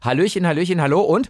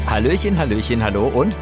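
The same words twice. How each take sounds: First: The greeting is said at a faster pace. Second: The greeting is said at a slower pace. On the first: The speaker calls it right. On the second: The speaker calls it wrong.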